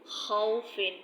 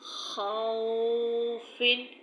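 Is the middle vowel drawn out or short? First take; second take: short; drawn out. First: The middle vowel is said softly and short. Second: The middle vowel is stretched out long. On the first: The speaker calls it right. "नरमी से पढ़े खौफिन" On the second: The speaker calls it wrong. "अगर आप इसको खींचेंगे"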